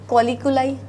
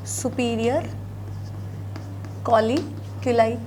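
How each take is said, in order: First: Said in the usual way. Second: कॉलिकुलाई drawn out syllable by syllable, much slower; slow repeat for dictation. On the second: Shown as a demonstration. Teacher repeats the term slowly so students can note it down. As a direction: say superior, pause, then stretch out कॉलिकुलाई. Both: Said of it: "इनको बोला जाता है superior".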